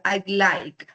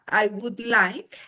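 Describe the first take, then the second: First: The word would is reduced to a d. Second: The word would is said in full. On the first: "La manera cortica" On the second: "de manera larga"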